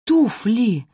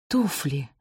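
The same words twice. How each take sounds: First: Higher, more forceful cry; exclaimed realisation. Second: Gasped. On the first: Mother repeats her discovery to the daughters, exclaiming. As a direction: throw out ТУФЛИ as a discovery. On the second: Mother suddenly remembers the shoes, hushed gasp. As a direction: let ТУФЛИ fall out under the breath. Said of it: "ахнула Раминта". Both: A narrator's reading.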